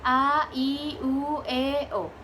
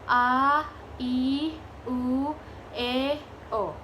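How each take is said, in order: First: The vowels are said quickly. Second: The vowels are said slowly. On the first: "set cepat" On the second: "set lambat"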